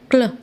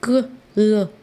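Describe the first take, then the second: First: The two consonant sounds are blended together. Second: The two consonant sounds are said separately. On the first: The speaker calls it right. "दोनों को blend करके साथ में बोलेगा" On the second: The speaker calls it wrong. "क ल ऐसे नहीं पढ़ेगा"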